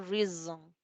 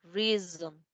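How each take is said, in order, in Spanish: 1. La consonante del medio es una z zumbante. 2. La consonante del medio es una z zumbante.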